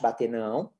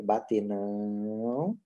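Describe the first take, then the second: First: Low, soft "bater não", kept short; short, restrained command; brief firm correction. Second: Low, soft "Bater não" with a long-held "não"; very slow, restrained command; very drawn-out correction. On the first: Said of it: "segura bracinho, põe pra baixo". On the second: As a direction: stretch "não" right out, low and steady. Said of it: "segura mais tempo". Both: Shown as a demonstration.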